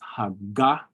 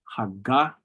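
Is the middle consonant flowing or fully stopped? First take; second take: stopped; stopped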